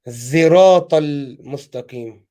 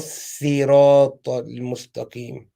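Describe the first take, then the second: First: The word begins with a z sound. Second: The word begins with a plain, light s sound. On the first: "pronounced as زراط المستقيم. Z- Zain" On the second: "The صاد is written as a sin, for example, and recited as"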